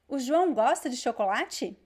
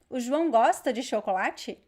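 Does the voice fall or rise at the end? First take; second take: rise; rise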